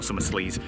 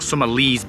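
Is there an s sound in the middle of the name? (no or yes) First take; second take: yes; no. First: The name is said with a middle s sound. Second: The name is said without a middle s sound. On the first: The speaker calls it wrong. "not Summerslees" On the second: The speaker calls it right. "or Summerlees Beach, should I say"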